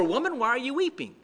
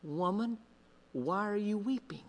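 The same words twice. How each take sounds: First: Quick, brisk question; angels asking. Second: Soft, quiet and tender question; gentle Jesus. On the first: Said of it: "two angels who ask her". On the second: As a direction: ask it softly, as Jesus comforting her. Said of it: "and he says". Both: Acted.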